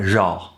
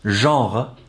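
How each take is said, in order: First: The word is chewed up and clipped short. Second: The word is pronounced fully and clearly. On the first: "it ends up being much more like genre" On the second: "the nice full word of genre"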